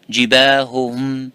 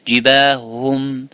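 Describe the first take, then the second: First: Both h sounds are pronounced, each with its vowel. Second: One h sound is swallowed, merging the syllables. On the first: The speaker calls it right. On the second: The speaker calls it wrong.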